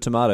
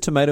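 First: Tomato is said with a non-American pronunciation. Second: Tomato is said with an American pronunciation. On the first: "instead of tomato" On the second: "some American bird. She says tomato"

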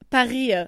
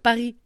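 First: The final syllable is drawn out and lingering. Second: The final syllable is short and clipped. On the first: The speaker calls it wrong. "c'est quand tu traînes à la fin des mots" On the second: The speaker calls it right. "au lieu de dire Paris"

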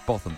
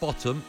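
First: The word is said with a th sound. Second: The word is said with a plain t sound. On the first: The speaker calls it right. "It's Botham, B-O-T-H-A-M" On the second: The speaker calls it wrong. "Not bottom. Everyone says bottom"

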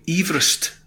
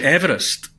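First: It is said the family's own way. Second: It is said the common, everyday way. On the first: The speaker calls it right. "George pronounced his surname Everest" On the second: The speaker calls it wrong. "we all call it Mount Everest"

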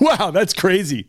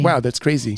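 First: The tone sounds amused and playful. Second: The tone sounds puzzled and baffled. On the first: Responding to a funny story. "if they're telling a joke or something funny" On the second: Responding to something puzzling. "Or if it's something baffling"

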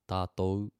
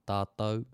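First: The word ends with an 'ou' sound. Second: The word ends with an 'au' sound. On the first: "where the last two letters of those words are o and u" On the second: "some iwi pronounce those words with the last two letters as a and u"

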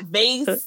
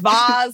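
First: The word is said in a plain, ordinary way. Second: The word is said in a posh, refined way. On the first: The speaker is ordinary, not refined. The speaker calls it wrong. "not vase" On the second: The speaker is classy and refined. The speaker calls it right. "men who pronounce it vase"

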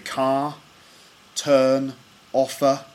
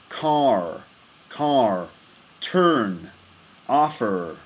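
First: The words are said in a British accent without the R sounds. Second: The words are said in an American accent with the R sounds. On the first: "In British speech, we'd say" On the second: "In America"

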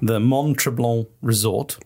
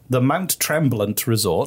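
First: Mont Tremblant is pronounced with French sounds. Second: Mont Tremblant is pronounced with English sounds. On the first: The speaker calls it right. "I'm about to say something French" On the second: The speaker calls it wrong. "Ignore that second time. I was being annoying"

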